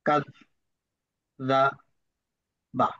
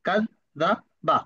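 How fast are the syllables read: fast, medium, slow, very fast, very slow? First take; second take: slow; fast. First: The syllables are read a little faster. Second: The syllables are read quickly. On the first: "দ্বিতীয়বার একটু তাড়াতাড়ি পড়ার চেষ্টা করব" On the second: "চতুর্থবার আরো দ্রুত"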